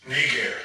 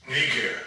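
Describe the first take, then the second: Both takes have the same delivery.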